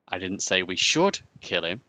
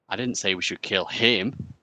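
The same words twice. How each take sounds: First: The stress falls on the word 'should'. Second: The stress falls on the word 'him'.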